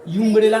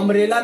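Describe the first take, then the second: First: The word begins with a 'yoo' sound. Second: The word begins with an 'uh' sound. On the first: The speaker calls it wrong. "यूम्ब्रेला नहीं बोल" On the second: The speaker calls it right. "एक अम्ब्रेला बोला जाता है"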